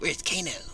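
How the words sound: It is said in a put-on female voice. The speaker calls it right. "in a female voice, it's kind of like that"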